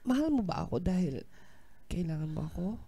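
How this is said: It is spoken in a sad tone.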